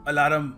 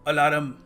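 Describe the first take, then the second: No difference in how they are said.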